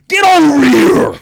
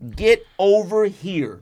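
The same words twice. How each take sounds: First: It is said imitating Scorpion's voice. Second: It is said in his normal voice.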